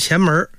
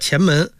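First: 门 is said with an r-coloured erhua ending. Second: 门 is said plain, without an r-coloured ending. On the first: The speaker calls it wrong. "不是前门" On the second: The speaker calls it right. "前门叫前门不是前门"

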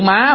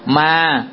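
First: The word is said with a high rising tone. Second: The word is said with a level tone. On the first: It means mother. "cái chữ má" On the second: It means ghost. "má bỏ dấu sắc lại"

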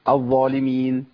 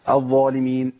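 No difference in how they are said.

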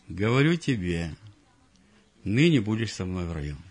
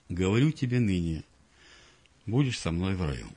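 First: The pause comes after the word tebe. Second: The pause comes after the word nyne. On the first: Being in paradise happens today. The speaker calls it right. "Говорю тебе, запятая, ныне будешь со мной в раю" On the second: The telling happens today; paradise comes later. The speaker calls it wrong. "И вот они цитируют это место"

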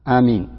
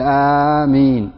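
First: The first vowel is short and the m single. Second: The first vowel is long and the m single. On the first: "مثل يمين بدون مد أولها" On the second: "بمد الألف مثل ياسين"

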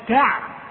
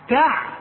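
Both takes have the same delivery.

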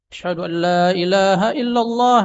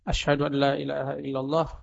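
First: The phrase is said loudly. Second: The phrase is said softly. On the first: "kemudian dikeraskan" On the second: "dia baca dulu pelan dulu"

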